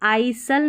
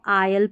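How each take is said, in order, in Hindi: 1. S की आवाज़ बोली जाती है। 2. S की आवाज़ साइलेंट रहती है। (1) "आइसल नहीं पढ़ेंगे" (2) "इसको आयल पढ़ेंगे"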